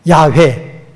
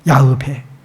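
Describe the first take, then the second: First: The name ends with a 'weh' sound. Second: The name ends with a 'beh' sound. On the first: This is the commonly used form. "야훼를 많이 쓰죠" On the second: This is the exact form. "정확한 발음은 야흐베"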